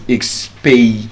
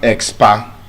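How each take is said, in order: First: The second syllable has an ay vowel. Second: The second syllable has an ah vowel. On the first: The speaker calls it right. "it's expay" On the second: The speaker calls it wrong. "the sound is not expa"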